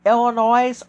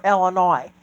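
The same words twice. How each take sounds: First: "Illinois" ending in a z sound. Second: "Illinois" ending in "noy"; Illinois with silent s. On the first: Asking which way to say it, "Illinois" with a z on the end. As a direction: say "Illinois" with the final s voiced. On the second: Asking which way to say it, "Illinois" ending on an open "oy". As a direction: say "Illinois" with no s sound at the end. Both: Shown as a demonstration. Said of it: "Illinois or Illinois?".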